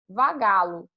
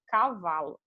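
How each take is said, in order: First: The word is said with changed consonants, 'vagalo'. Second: The word is said in its standard form. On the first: This is how a small child said it. "ela chamava vagalo" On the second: This is the original word. "a original"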